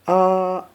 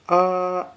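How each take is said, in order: First: It is said with the first tone. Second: The same.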